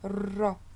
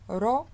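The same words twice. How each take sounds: First: The r is trilled with several rolls. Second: The r is trilled with a single roll. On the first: The speaker calls it wrong. "ce serait incorrect de dire ro. Non" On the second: The speaker calls it right. "un seul roulement est suffisant"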